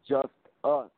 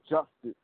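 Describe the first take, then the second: First: It sounds like two words, just and us. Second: It sounds like the single word justice. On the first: It is the way people commonly say the name. "when people pronounce the name, you know, they say just us" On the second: It is the way the name was meant to be said. "I meant it to be, you know, justice"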